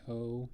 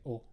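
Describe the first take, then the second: First: The vowel is long and drawn out. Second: The vowel is very short and clipped. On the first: The speaker calls it wrong. "You don't say O" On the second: The speaker calls it right. "You just say O. It's very short, precise sound"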